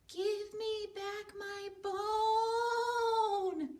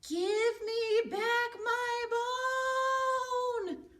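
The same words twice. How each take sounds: First: It is said softly and quietly. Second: It is said a little louder.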